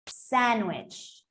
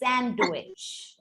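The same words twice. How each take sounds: First: The D sound is left out. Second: The D sound is pronounced. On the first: "I was taught to say the word without the D" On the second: "depending on uh, you know where you're from, you can say sandwich"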